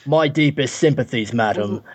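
It is spoken in an attempted Cockney accent. "I seriously don't think I can do a Cockney accent"

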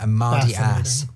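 It is said in an American accent.

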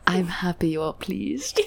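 It is acted out with expressive delivery.

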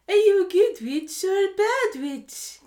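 It is said in a put-on witch voice.

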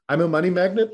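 It is said doubtfully, like a question.

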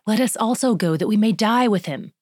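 The line is said in an eager, committed tone. He is truly willing to die with Jesus. "truly committed and is enthusiastic"

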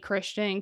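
The name is said with an American accent.

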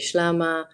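It is said in the Eastern Assyrian dialect.

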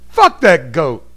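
It is said like a cursing exclamation. It curses the goat as a source of bad luck. The speaker calls it right. "The second one was an expletive"

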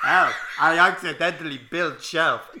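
It is said in a put-on foreign accent.

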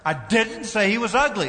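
The stress is on the word 'didn't'. The speaker firmly denies saying it. "Emphasis on the second word"

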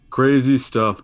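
It is said in a put-on character voice. The speaker calls it right. "now let me do my voice"

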